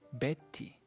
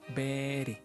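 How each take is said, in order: First: The middle consonant is a clear T sound. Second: The middle consonant sounds like a soft D. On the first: The speaker calls it wrong. "We don't say Betty" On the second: The speaker calls it right. "It sounds like a letter D"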